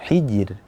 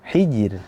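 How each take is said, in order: No difference in how they are said.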